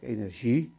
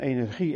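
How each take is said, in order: First: The g sounds like a soft zh. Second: The g sounds like a hard throaty g. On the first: "de ZJ-uitspraak" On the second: "met een G van energie"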